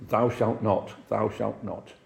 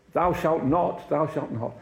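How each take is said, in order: First: A hint of a stern deacon, measured and even; lightly voiced strict old churchman laying down the law; stern hardliner. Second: Higher stern "Thou shalt not", pitched up and declaimed; mock strict preacher, raised and pronounced; hammed-up hardliner. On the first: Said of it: "I mean he was a hard line". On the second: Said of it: "somebody was a hardliner".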